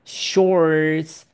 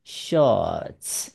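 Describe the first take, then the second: First: "shorts" with the R clearly curled; American-style "shorts", R sounded before the TS. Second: Slow "shorts" as "shawts", no R; British "shorts" with a long rounded vowel, silent R. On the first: (美式 shorts，要卷舌) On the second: (英式 shorts，不卷舌) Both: Shown as a demonstration. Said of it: "英国人念shorts".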